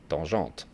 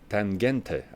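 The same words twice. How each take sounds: First: The word is said with a French accent. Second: The word is said without a French accent. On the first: This is how a French speaker says it. "With my French accent, I would say tangente" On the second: This is how the makers say it. "I think they pronounce it like like that"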